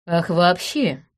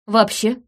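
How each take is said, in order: First: Drawled. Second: Said in the usual way. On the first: Acted. Detective echoes the suspect's excuse, drawn out. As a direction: stretch out вообще slowly and knowingly. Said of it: "протянула я". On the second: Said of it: "Я просто так сказал".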